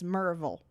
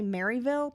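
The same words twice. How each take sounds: First: The name is said the local Tennessee way. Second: The name is said the non-local way. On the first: The speaker calls it right. "people in Tennessee are like, it's Maryville" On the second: The speaker calls it wrong. "when you say Maryville"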